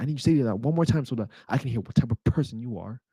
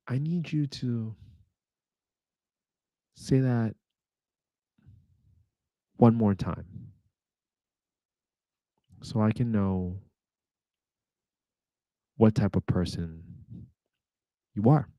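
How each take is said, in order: First: It is said in one smooth flow. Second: It is broken up by several pauses.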